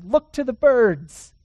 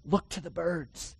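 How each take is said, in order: First: Loud, slow, ringing command; louder emphatic preaching. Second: Softer, gentle reminder; hushed reassurance after the question; soft answer. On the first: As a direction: call it out to the room. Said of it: "That's what he says". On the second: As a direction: say it quietly, almost to yourself. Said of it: "Are you sure?". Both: Shown as a demonstration.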